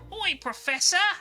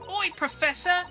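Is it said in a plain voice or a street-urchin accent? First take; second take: urchin accent; plain. First: It is said in a rough British street accent. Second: It is read in a plain, ordinary voice. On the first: The speaker calls it right. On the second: The speaker calls it wrong.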